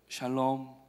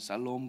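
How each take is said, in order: First: The word begins with a soft sh sound. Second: The word begins with a hard s sound. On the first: The speaker calls it right. "샬롬은 발음을 잘 하셔야 됩니다" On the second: The speaker calls it wrong. "조금 세게 하면은 살롬 그러면은 조금 이상한 어감이 되니까"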